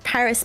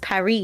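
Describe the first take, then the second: First: Paris is pronounced the English way, with final s. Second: Paris is pronounced the French way, without final s.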